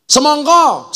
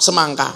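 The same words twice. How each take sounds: First: "Semongko" with round o, higher; "Semongko" the Javanese way. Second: "semangka" with open a vowels; "semangka" the ngapak way. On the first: Javanese word for watermelon, round o. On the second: Ngapak word for watermelon, open a. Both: Shown as a demonstration. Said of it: "Apa maning, yuk?".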